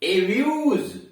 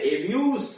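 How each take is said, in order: First: The word ends with a z sound. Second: The word ends with an s sound. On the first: It is the verb, to insult someone. "जो पर आप समाप्त करते हैं गाली देना" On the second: It is the noun, an insult. "सब पर समाप्त करते हैं, तो इसका मतलब गाली"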